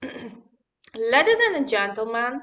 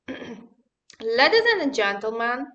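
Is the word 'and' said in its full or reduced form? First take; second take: reduced; reduced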